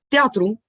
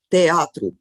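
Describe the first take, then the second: First: The two vowels merge into one syllable. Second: The two vowels stay in separate syllables. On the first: "la misma combinación se pronuncia a veces como diptongo" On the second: "como sería normal"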